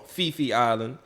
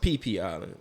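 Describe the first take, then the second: First: The name begins with an F sound. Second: The name begins with a P sound. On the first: This is how outsiders usually say it. The speaker calls it wrong. "what we call" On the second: This is how local people say it. The speaker calls it right. "it's really pronounced"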